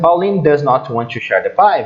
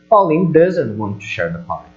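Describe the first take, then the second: First: Does not is said as two full words. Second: Does not is contracted to doesn't. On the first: The speaker calls it wrong. "na fala, eles não vão falar assim" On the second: The speaker calls it right. "Vai virar"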